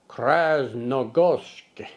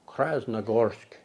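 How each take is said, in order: First: It is said in a normal voice. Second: It is said in a lowered, deep voice. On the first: "get my Russian accent in there" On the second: "It's better when you lower your voice like a Russian"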